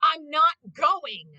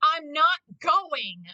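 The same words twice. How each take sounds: First: Slow, louder stubborn Vegeta; flat refusal drawn out. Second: Slow, louder stubborn Vegeta. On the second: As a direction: drag out the refusal. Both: Retold or imitated. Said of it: "And he's like".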